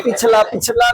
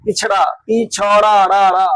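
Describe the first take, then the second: First: पिछला ending in a plain "la"; imitated mispronunciation. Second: पिछड़ा slowed, the final ṛa hammered and repeated; correct word form. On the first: Teacher mimics a student saying पिछला, wrong-sound demo. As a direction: echo the mistake, पिछला with L in place of ṛ. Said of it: "पिछला बोल रहा है". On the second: Shown as a demonstration. Teacher drills the student on पिछड़ा, slow emphatic correction. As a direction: say पिछड़ा, then stretch it and drill "ra, ra". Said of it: "पिछला नहीं".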